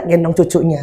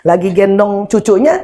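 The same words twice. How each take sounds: First: "gendong cucunya" lower and softer, falling on "cucunya"; echoed statement falling and quieter. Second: "Lagi gendong cucunya" with the voice rising on "cucunya"; first statement rising at the end; rising first mention. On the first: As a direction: drop "cucunya" down to close it off. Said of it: "repeated phrase, second take". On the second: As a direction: lift "cucunya" as if the list goes on. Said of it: "repeated phrase, first take". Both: Shown as a demonstration.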